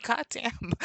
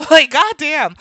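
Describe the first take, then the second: First: Soft, higher retold aside; muted disbelief. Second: Loud, high, laughing retort; laughing disbelief. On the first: Reacting to being told of the accent, muted disbelief. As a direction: say it under the voice, taken aback. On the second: Retold or imitated. Reacting to being told of the accent, loud amused disbelief. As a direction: exclaim it louder through a laugh.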